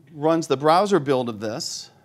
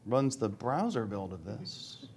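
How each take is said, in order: First: Said in the usual way. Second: Slow, soft and drawn out, waiting on a stuck demo; stalling repeat. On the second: Real, not acted. Presenter repeating himself while the demo stalls, slow and quiet. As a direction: stretch it out quietly, as if coaxing the demo to respond.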